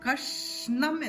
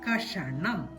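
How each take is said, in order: First: The sh runs straight into n, no vowel. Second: A vowel is sounded between sh and n. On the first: The speaker calls it right. "ചന്ദ്രകല ചേർക്കുമ്പോ കഷ്ണം എന്നാണ് ഉച്ചരിക്കേണ്ടത്" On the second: The speaker calls it wrong. "ചന്ദ്രകല ഇട്ടില്ലെങ്കിൽ എങ്ങനെ ഉച്ചരിക്കും? ... അങ്ങനെയല്ല"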